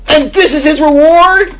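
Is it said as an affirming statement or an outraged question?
outraged question. It is said as an outraged, disbelieving question.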